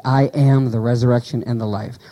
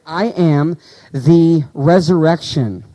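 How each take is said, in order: First: Said in the usual way. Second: "I am the resurrection" drawn out word by word; slow reading for emphasis; slow scripture quote. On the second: Shown as a demonstration. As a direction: let each word of the verse land slowly.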